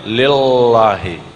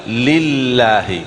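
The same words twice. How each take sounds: First: Lillahi with the l pulled back, sounding like lelahi; wrong lillahi. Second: Lillahi with a forward, held l; correct lillahi. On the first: Teacher warns against this lillahi. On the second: Teacher asks the student to try lillahi. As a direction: say lillahi with the tongue tip forward. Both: Shown as a demonstration. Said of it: "Jangan lillahi".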